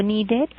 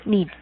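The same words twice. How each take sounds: First: "needed" with a full Spanish e, nee-DED; "needed" with a rising, full last syllable; wrong, spelled-out ED. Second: "needed" with a short weak i, NEE-did; "needed" with reduced last vowel; correct id ending. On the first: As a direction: read "needed" as written, clear "ded" at the end. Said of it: "no digo wanted con E". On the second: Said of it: "Sino decimos needed". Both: Shown as a demonstration.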